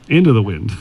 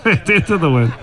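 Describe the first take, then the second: First: Said in the usual way. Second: "Into the wind" repeated through a laugh, a bit higher. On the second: Real, not acted. Joking to golfers about playing holes into the wind, laughing. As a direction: echo "Into the wind" as you laugh.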